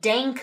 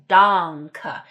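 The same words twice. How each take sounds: First: The first vowel is not an open ah. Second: The first vowel is an open ah. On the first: The speaker calls it wrong. "It's not some sort of danke or something like that" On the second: The speaker calls it right. "You have to have a real ah"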